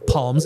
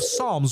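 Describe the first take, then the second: First: The word begins with a sounded P. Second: The word begins with an S sound. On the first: The speaker calls it wrong. "it's not the book of Psalms" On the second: The speaker calls it right. "it's the book of Psalms with an S"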